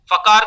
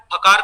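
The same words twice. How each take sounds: First: फकार started with an English f; wrong f sound. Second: फकार started with an aspirated p; correct ph sound. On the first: Teacher showing the sound to avoid, फकार with f. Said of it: "फकार का उच्चारण नहीं करना है". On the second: Teacher showing the sound to use, फकार with aspirated p. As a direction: close both lips, puff out the ph in फकार. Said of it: "फकार का उच्चारण करना है". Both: Shown as a demonstration.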